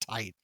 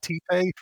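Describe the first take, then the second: First: It is one syllable rhyming with light. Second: It is two syllables, like tee-tay. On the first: The speaker calls it right. "he does want you to pronounce it tight" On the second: The speaker calls it wrong. "It's not T-Pay?"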